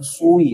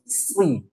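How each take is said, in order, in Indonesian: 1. Suku kata ini diucapkan dengan bibir membulat. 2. Suku kata ini diucapkan dengan bibir tidak membulat. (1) "Jangan pakai bibir, tapi pakai lidah. Jangan sui" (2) "tapi sli"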